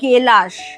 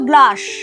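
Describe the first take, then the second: First: An e vowel splits the g and l. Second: The g and l are said together as a cluster.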